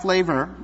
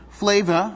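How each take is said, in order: First: "flavor" with its final r sounded; plain "flavor", full r ending; standard pronunciation. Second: FLAVOR said "flay-vuh"; "Flavor" as slangy "flay-vuh"; slangy pronunciation. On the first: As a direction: say "flavor" as "flay-ver". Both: Shown as a demonstration. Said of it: "not flavor".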